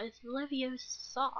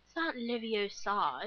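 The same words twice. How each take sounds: First: Slow, higher "Leviosa" drawn out on the "sa"; a light know-it-all mimic; Hermione Granger quote. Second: Lightly voiced prim Hermione, slow "Leviosa" with stress on "o"; Hermione Granger quote. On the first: Quoting Hermione's correction, mock prim. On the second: Quoting Hermione's correction in class, lightly mimicked. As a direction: correct it like a know-it-all. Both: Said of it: "Hermione Granger saying".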